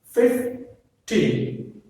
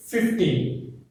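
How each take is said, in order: First: Put-on "Fifteen" broken slowly into "Fif" and "teen"; split into syllables. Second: Put-on "fifteen" as one word, stressed on "teen". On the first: Teacher breaks it up for students, "Fifteen" as "Fif, teen". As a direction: pause after "Fif", then stress "teen" in "Fifteen". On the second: Teacher gives another example, "fifteen" whole with stress on "teen". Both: Shown as a demonstration. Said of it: "Stress is on the T".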